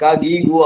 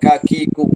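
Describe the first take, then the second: First: The syllables begin with a voiced g sound. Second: The syllables begin with a voiceless k sound. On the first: The speaker calls it wrong. "ആവില്ല" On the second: The speaker calls it right. "അറബിയിൽ ക എപ്പോഴും ക തന്നെ"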